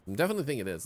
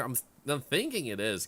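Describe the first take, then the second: First: Definitely said louder with a falling tune; stress on definitely. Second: Said in the usual way. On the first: Shown as a demonstration. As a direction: lean hard on definitely.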